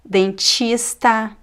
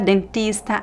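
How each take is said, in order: First: The T before I sounds like 'ch'. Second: The T before I is a plain T. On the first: "I will always pronounce the T as chi" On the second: "Some people would say"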